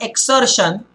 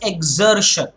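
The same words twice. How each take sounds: First: The x is said without a z sound. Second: The x is said with a z sound. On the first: The speaker calls it wrong. "but it's not exertion" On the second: The speaker calls it right. "it is exertion"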